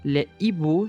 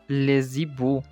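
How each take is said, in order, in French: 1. Les mots se disent séparément, sans son de liaison. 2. Les mots sont liés par un son de liaison z. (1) "Le H aspiré bloque toutes les liaisons ou enchaînements. On dit" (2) "et pas"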